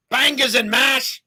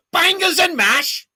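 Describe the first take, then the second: First: Slow, loud, high mock British accent; hammed-up British accent on Bangers and mash; bad British accent. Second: Much higher, louder, slow mock British accent. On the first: Host tries a British catchphrase, loud mock British accent. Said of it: "That's a terrible accent". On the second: Host's best try at the catchphrase, loud mock British accent. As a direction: belt out Bangers and mash in a hammed-up British accent. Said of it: "Was that better?".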